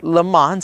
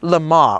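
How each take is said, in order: First: The name is said in an American style. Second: The name is said in a French style.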